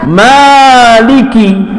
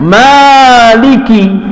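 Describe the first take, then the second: First: The vowel after the m is drawn out long. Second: The same.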